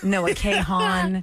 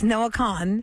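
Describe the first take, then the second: First: The surname is said like 'Kahan'. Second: The surname is said like 'Khan'. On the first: The speaker calls it wrong. "a lot of people say Noah Kahan" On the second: The speaker calls it right. "It's Noah Khan"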